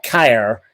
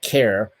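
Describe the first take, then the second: First: Keir said to rhyme with "fire"; wrong pronunciation. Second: Keir said like "care"; correct pronunciation. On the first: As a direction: say Keir with an "eye" vowel, like "kire". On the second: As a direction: say Keir with an open "air" vowel. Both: Shown as a demonstration. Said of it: "not Keir, but Keir".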